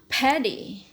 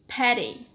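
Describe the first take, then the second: First: The middle consonant is a clear stop. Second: The middle consonant is a quick soft flap. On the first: "British is going to say paddy" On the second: "American will say rice is from paddy"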